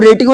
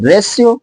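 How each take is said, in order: First: The middle consonant is a hard t sound. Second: The middle consonant is a sh sound. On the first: The speaker calls it wrong. "अब इसको रेटियो नहीं बोलेंगे" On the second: The speaker calls it right. "रेशियो means अनुपात"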